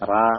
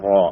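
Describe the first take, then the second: First: The r is light, with an open a vowel. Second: The r is heavy, with a rounded o-like vowel. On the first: The speaker calls it wrong. "റാ അല്ല" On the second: The speaker calls it right. "റായിന്റെ തഫ്ഖീം റോ"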